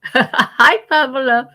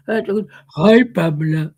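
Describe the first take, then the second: First: Said in the usual way. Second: Dropped noticeably lower for the greeting; trying out a lower voice. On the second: Shown as a demonstration. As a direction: say hi in a deeper register. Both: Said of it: "lower my voice".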